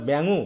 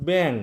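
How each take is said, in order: First: ব্যাঙু with a final u sound added; wrong ending. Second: ব্যাং ending cleanly on the ng sound, no vowel after; right ending. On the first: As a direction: say ব্যাঙু, ending the word on an extra u vowel. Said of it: "কি, কি বলি আমরা?". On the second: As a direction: say ব্যাং, closing on a nasal ng. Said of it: "তাহলে উচ্চারণ হচ্ছে শেষ পর্যন্ত উম". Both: Shown as a demonstration.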